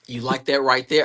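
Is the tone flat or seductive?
flat. It is said in a flat, plain way.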